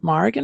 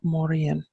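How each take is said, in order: First: The name is said in an English-style pronunciation. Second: The name is said in an Irish-style pronunciation. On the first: "which is the anglicised version" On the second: "which is the Irish version"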